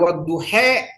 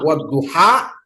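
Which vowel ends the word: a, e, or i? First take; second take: e; a. First: The final vowel is a leaning e. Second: The final vowel is an open a. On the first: "kalau dia imalah" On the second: "kalau dia misalnya patah"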